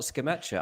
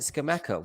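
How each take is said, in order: First: The middle consonant is a 'ch' sound. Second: The middle consonant is a hard 'k' sound. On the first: "Why is it not Skamacha? ... double C ... they're all Chi" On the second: "why is it Skamaka?"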